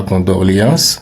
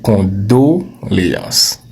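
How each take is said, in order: First: «condoléances» with an r, "condorléances"; «condoléances» said with a long final s and an added r; wrong condoléances. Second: «condoléances» slow, plain o, no r; «condoléances» said slowly as "con-do-lé-ances"; correct condoléances. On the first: Teacher imitates the wrong condoléances. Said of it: "Ce n'est pas". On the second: Teacher gives the right condoléances slowly. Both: Shown as a demonstration.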